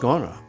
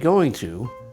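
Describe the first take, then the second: First: The words blend into one reduced word. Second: Both words are said fully and separately. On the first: "When we're speaking fast, we say gonna" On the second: "we don't say going to"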